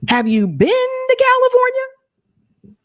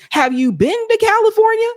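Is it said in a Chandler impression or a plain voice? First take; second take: Chandler impression; plain. First: It is said in a Chandler Bing impression. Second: It is said in a plain debating voice.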